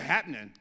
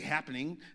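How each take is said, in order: First: The word is said in a casual, slangy way. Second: The word is said in a plain, standard way. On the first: The speaker calls it right. "Say it like you got some slang on you" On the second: The speaker calls it wrong. "Don't say happening"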